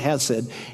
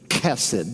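First: It begins with a plain, soft h sound. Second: It begins with a rough, throaty ch sound. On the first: The speaker calls it wrong. "People mispronounce it all the time. It's not hesed" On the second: The speaker calls it right. "It's chesed"

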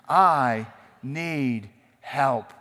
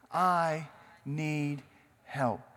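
First: It is said with force and conviction. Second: It is said in a plain, calm voice. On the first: "Now say it like you mean it" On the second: "Say it with me"

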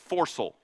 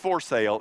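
First: It does not sound like 'for sale'. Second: It sounds like the phrase 'for sale'. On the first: The speaker calls it right. "It's foresail" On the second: The speaker calls it wrong. "this is not foresail"

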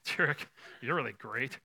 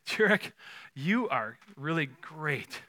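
First: The compliment sounds mocking and sarcastic. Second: The compliment sounds warm and sincere. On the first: The praise is meant to hurt. The speaker calls it wrong. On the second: The praise is meant genuinely. The speaker calls it right.

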